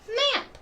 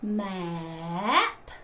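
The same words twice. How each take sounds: First: The word is said quickly as one unit. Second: The word is said slowly, sounds drawn out. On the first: "Fast like a word" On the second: "swoop to blend the word"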